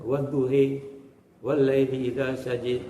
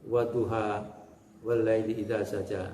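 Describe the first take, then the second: First: The final vowels lean toward 'e' or 'i'. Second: The final vowels are open 'a' sounds.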